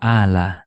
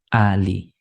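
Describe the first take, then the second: First: The word ends with an a vowel. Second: The word ends with an i vowel. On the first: The speaker calls it wrong. "nggak dibaca ala" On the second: The speaker calls it right. "tapi ali"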